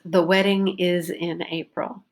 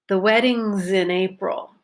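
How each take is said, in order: First: The word 'is' is said in full. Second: The word 'is' is reduced and joined on. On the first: "the way you would write it" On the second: "So I reduced is and in"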